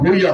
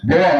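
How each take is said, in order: First: It is said bhuiya, with an 'ee' sound. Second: It is said bhuya, without an 'ee' sound. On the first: The speaker calls it wrong. "ভুইয়া হয় না" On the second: The speaker calls it right. "ভুয়া উচ্চারণটা দাগন ভুয়া"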